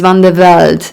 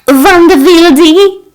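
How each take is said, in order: First: The last part of the name sounds like 'Velde'. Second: The last part of the name sounds like 'Wilde'. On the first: This is how the owner says the name. The speaker calls it right. "my name is Van de Velde" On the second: Someone else mispronounced the name. The speaker calls it wrong. "The pronunciation was so wrong"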